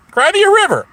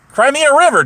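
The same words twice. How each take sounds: First: "Cry me a river" pushed far higher, a sing-song jeer on "me"; louder taunt. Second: "Cry me a river" much higher, with a mocking lilt; taunting. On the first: Acted. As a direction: really rub it in, peaking on "me". Taunt repeated, pushed further. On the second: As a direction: needle the rival, "river" falling at the end. Taunting a rival streamer.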